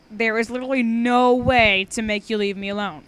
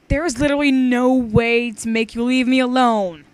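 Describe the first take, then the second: First: Said in the usual way. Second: Put-on loud, childish singsong reading; read like a five-year-old. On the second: Shown as a demonstration. Reading aloud, teen reads the line badly like a child. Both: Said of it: "I totally read that bad".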